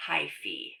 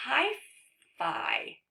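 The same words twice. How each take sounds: First: "hyphae" ending in "fee"; corrected pronunciation. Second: "hyphae" ending in "fai", like eye; mistaken reading. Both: Shown as a demonstration. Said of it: "I think this is pronounced".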